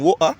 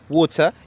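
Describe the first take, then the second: First: The T in the middle is soft. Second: The T in the middle is crisp. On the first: "one is saying water" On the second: "the other says water, emphasizing the T"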